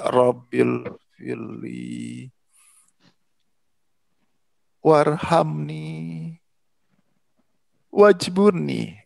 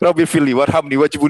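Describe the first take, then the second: First: The words are recited slowly and calmly. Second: The words are rushed out quickly. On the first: The prayer comes from the soul. The speaker calls it right. "Pelan-pelan saja" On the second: The prayer is driven by selfish desire. The speaker calls it wrong. "itu tergesa-gesa"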